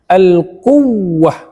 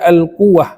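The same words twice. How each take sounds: First: The doubled w is emphasized with a slight rise. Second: The doubled w is said flat, without emphasis. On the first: The speaker calls it right. "karena wawnya ber bertasydid" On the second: The speaker calls it wrong. "nggak boleh dibaca"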